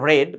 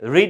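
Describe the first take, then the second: First: The vowel is short, like in 'red'. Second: The vowel is long, like in 'reed'. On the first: The action happened in the past. "এর past form যখন বলবেন উচ্চারণ করতে হবে রেড" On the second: The action happens in the present. "রিড হচ্ছে present form"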